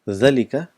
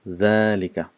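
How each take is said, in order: First: The first vowel is short. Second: The first vowel is long. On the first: This is how the word is written. "it's written as" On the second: This is how the word is actually pronounced. "but we pronounce it as"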